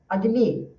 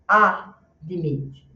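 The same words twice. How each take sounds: First: The first vowel is a weak, sigh-like reduced sound. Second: The first vowel is a full, wide open A. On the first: The speaker calls it right. "ele é bem fraco. É quase só um suspiro. Então você faz admit" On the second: The speaker calls it wrong. "você não faz admit, porque um A para a gente fica uma abertura de bocona muito grande"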